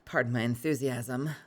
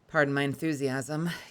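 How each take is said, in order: First: It is said in a bored voice. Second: It is said in an excited voice.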